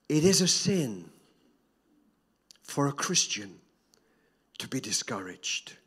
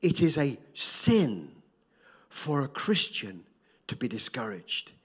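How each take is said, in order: First: Said in the usual way. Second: Slow, weighted repeat stressing "is" and "for"; slow emphatic repeat. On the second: Shown as a demonstration. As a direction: lean on every phrase, slowly. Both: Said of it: "Can, can I say that again?".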